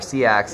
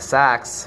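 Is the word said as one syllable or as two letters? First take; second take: two letters; one syllable. First: It is said as two letter names, C and X. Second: It is said as one syllable, rhyming with wax. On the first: The speaker calls it wrong. "C X as we call it" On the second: The speaker calls it right. "the word is actually pronounced sax"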